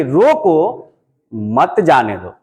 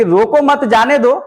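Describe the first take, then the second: First: "रोको" left rising, a pause, then "मत जाने दो" much lower; pause after रोको. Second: Said in the usual way. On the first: Shown as a demonstration. Teacher showing students how the comma reads, pause after "रोको". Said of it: "अब इसको कैसे पढ़ेंगे?". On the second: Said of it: "पहले हम कह रहे थे कि".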